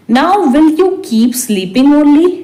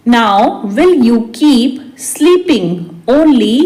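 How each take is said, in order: First: Said in the usual way. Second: Measured, word by word; slow repeat. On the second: Shown as a demonstration. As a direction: hold back the last word. Teacher repeats translation word by word. (धीरे-धीरे, शब्द-दर-शब्द)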